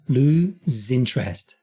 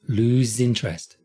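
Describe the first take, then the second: First: The phrase is said very slowly. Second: The phrase is said more quickly. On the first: "let me do this very slowly" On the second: "a little quicker"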